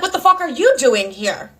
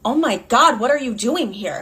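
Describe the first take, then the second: First: "you" punched higher in a retort; stress on you. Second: Lightly acted startled question; mildly startled. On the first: Retold or imitated. Daughter turning the boyfriend's question on him, stress on "you". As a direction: throw the question back, hitting "you". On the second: Boyfriend caught by girlfriend's daughter, mildly startled question. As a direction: play him caught off guard, only mildly. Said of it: "Clearly the man is startled".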